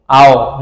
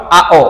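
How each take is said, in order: First: আও as one gliding syllable; joined vowels. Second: আও broken into আ and ও; separated vowels. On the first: Teacher modelling the right reading, আও joined up. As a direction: run আ straight into ও in আও. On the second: Teacher warning what not to say, আও split in two. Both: Shown as a demonstration. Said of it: "not আও".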